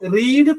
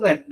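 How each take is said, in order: First: The vowel is long, like 'reed'. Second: The vowel is short, like 'red'. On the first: It is the present tense. "റീഡ് present tense" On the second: It is the past tense. "Past tense റെഡ് ആണ്"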